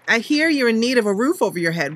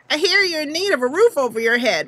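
First: The put-on character voice is mild. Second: The put-on character voice is strong. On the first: The speaker calls it wrong. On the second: The speaker calls it right.

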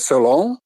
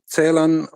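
First: The stress is on the last syllable. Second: The stress is on the first syllable. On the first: This is how people in France called him. "з наголосом на останньому складі" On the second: This is the German way the poet himself wanted. "треба читати з наголосом на першому складі"

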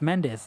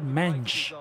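First: The name ends in a 'des' sound. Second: The name ends in a 'ch' sound. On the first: The speaker calls it right. "It's Mendes" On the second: The speaker calls it wrong. "he said Mench. Why does he say Mench?"

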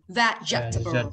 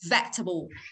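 First: Every syllable of the word is said fully. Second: A middle sound is swallowed in the word. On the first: "đọc chuẩn không nuốt âm thì nó đọc là vegetable" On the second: "sử dụng phần nuốt âm thì nó đọc là vegetable"

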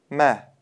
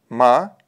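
First: The syllable sounds soft and light. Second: The syllable sounds hard and thick. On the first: The speaker calls it right. "Правильно произнести мягко" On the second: The speaker calls it wrong. "говорить твердо МА будет неверно"

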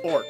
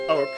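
First: The word sounds like 'orc'. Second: The word sounds like 'oak'. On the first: The speaker calls it right. "But it's pronounced Orc" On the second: The speaker calls it wrong. "Which could be pronounced as Oak. Like Professor Oak"

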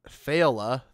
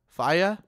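First: The name is said with a clear L sound. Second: The name is said without a clear L sound. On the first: The speaker calls it wrong. "I'm pretty sure it's not Faila" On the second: The speaker calls it right. "the L's are like... they're not like L"

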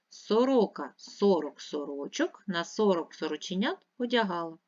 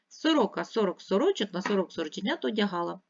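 First: The sentence is said at a slower pace. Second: The sentence is said at a faster pace. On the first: "Ще раз" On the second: "А тепер швидше"

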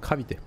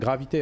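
First: The word begins with a voiceless K sound. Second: The word begins with a voiced G sound. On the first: The speaker calls it right. "Comme le Krav Maga" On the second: The speaker calls it wrong. "Pas gravité"

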